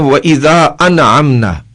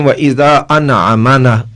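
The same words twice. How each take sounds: First: The unvoweled consonant is kept without a vowel. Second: The unvoweled consonant is given an added vowel. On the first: The speaker calls it right. "हम पढ़ते हैं" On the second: The speaker calls it wrong. "ये हरकत की तब्दीली हो जाएगी"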